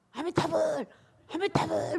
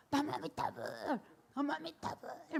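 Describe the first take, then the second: First: Loud, higher shouted Amitabha chant. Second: Higher chanted Namu Amitabha; chant out the window. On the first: Husband shouting the chant at his wife instead of cursing. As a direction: bellow the chant like a loud outburst. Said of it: "막 그러신대요". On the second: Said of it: "막 그러고 나서". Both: Retold or imitated.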